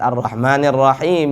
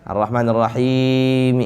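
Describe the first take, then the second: First: The vowel before the final m is short. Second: The vowel before the final m is drawn out. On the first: The speaker calls it right. "hanya dua harakat saja" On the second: The speaker calls it wrong. "Enggak boleh"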